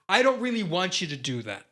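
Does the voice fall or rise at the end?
fall. The voice falls at the end of the sentence. The speaker sounds sure. "They go"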